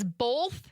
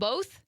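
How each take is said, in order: First: The word is said with an L sound. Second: The word is said without an L sound. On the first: The speaker calls it wrong. "with an L" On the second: The speaker calls it right. "instead of both"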